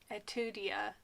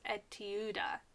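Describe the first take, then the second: First: The name ends with an extra 'ee-ah' sound. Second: The name ends with a plain 'ah' sound. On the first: The speaker calls it wrong. "I keep trying to say et Etudia" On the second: The speaker calls it right. "but it's Etuda"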